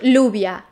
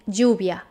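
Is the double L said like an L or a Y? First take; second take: L; Y. First: The double L sounds like an L. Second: The double L sounds like a Y. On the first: The speaker calls it wrong. "Not lluvia" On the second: The speaker calls it right. "when you have two L's together, it's pronounced J, as in lluvia"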